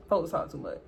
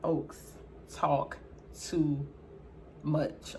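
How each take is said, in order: First: Said in the usual way. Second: Each word spaced out, softer and lower; slow and deliberate. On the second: Real, not acted. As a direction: drag it out word by word. Slow deliberate take, then repeated normally.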